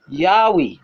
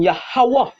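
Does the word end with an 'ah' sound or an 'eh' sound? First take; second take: eh; ah. First: The last syllable has an 'eh' vowel. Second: The last syllable has an 'ah' vowel. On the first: The speaker calls it wrong. "wouldn't be um Yahweh, all right, because it has no e in the ancient Hebrew" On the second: The speaker calls it right. "the Lord name would have been Yahweh"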